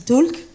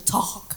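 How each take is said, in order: First: The L sound is clearly pronounced. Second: The L sound is left silent. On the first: The speaker calls it wrong. "je prononce le L pour ceux qui ne comprennent pas" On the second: The speaker calls it right. "mais on dit talk"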